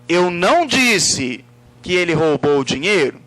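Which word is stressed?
disse. The word disse carries the emphasis. It refers to the way it was expressed. "No modo como eu me expressei. Eu poderia ter escrito"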